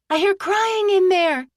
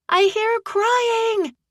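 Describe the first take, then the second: First: High, urgent shout. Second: Higher, slower, more insistent yell; yelling louder. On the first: Aggie at the burning saloon shouting to the crowd, high urgent cry. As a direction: call out to get someone's attention. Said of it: "Aggie shouted". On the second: Aggie pointing at the saloon windows, yelling louder. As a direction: push it harder, nobody's listening. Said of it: "she yelled louder". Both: Acted.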